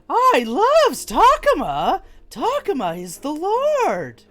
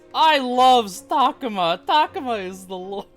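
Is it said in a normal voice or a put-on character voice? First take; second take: character voice; normal voice. First: It is said in an imitated Agumon voice. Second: It is said in a plain, normal voice.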